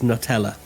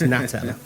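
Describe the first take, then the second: First: The name is said like the word Nutella. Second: The name is said with an 'a' vowel, Natella. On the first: The speaker calls it wrong. "I really want to pronounce it as Nutella, but it isn't" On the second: The speaker calls it right. "It's Natella"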